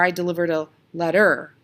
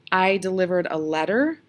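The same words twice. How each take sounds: First: "letter" wrongly stressed as let-TER; stress on second syllable. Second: "letter" stressed on LET, rising like a question; stress on first syllable. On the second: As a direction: offer "letter" with the usual LET-ter beat. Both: Shown as a demonstration. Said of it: "We usually say letter".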